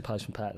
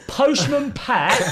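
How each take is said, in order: First: Much softer, barely heard; muttered so the manager hardly hears; quiet mumble. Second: Much higher, slow and louder; drawn-out cheeky chant, pitched up; bold sing-song. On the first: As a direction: say it under your breath. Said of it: "I said / like that". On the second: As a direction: call it right in his face. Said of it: "went straight up to his boat". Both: Retold or imitated.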